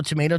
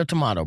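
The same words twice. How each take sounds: First: Tomato with a long a, "tomato" as to-MAY-to; tomayto. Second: Tomato with a broad ah, "tomato" as to-MAH-to; tomahto. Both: Shown as a demonstration. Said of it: "just an example".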